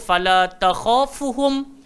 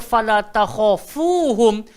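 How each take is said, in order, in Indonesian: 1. Vokal sebelum suku kata terakhir dibaca pendek. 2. Vokal sebelum suku kata terakhir dibaca panjang. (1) "bila akak terpendekkan ataupun kita sendiri terbaca" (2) "bila Allah kata fala takhafuhum"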